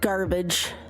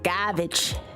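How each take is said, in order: First: It is said in a plain accent. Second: It is said in a Boston accent.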